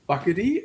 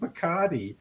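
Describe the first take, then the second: First: It is said with a mangled 'Buckety' pronunciation. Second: It is said with a clear 'Bacardi' pronunciation. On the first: The speaker calls it wrong. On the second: The speaker calls it right.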